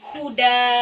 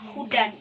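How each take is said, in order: First: The word ends in a lengthened vowel. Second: The word ends with an n sound. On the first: The reader stops on this word. "menjadi alif dan dibaca dua harkat. Menjadi huda" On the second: The reader continues without stopping. "ketika kita berhenti pada kata hudan ini"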